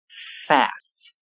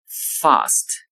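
First: It is said in an American English accent. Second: It is said in a British English accent. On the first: "到美式英语中发作 fast" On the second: "在英式英语中发作 fast"

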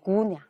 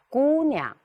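First: The first syllable is short and clipped. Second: The first syllable is noticeably lengthened. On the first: The speaker calls it wrong. "这个不能读成姑娘，读的太短了" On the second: The speaker calls it right. "第一个音节呢，适当要加长一点"

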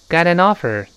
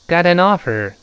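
The two takes are said the same way.

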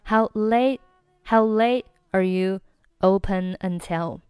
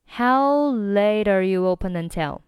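First: Late and are are separate; late's t is silent. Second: Late and are run together like 'later'. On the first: "你可以选择late 和er 不连，仅仅是late 末尾的t 不发音" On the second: "所以呢整句话就变成了"

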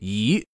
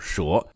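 First: The syllable is pronounced yí. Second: The syllable is pronounced shé. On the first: It describes winding, snake-like movement. "表达像蛇一样爬行移动时则念为仪" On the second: It names the animal, a snake. "当名词出现的时候读作蛇"

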